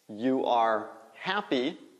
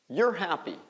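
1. You e are são ditos como duas palavras separadas. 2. You e are se fundem em uma só sílaba, como 'your'.

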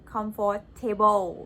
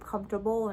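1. เสียงหนักอยู่ที่ส่วน 'table' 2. เสียงหนักไม่ได้อยู่ที่ 'table'

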